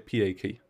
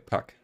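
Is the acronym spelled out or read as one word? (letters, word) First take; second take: letters; word. First: The acronym is spelled out letter by letter. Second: The acronym is pronounced as a single word. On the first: The speaker calls it wrong. "We also don't say PAK" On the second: The speaker calls it right. "we say pack"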